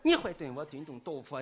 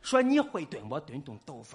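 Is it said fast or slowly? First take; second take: fast; slowly. First: It is said fast. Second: It is said slowly.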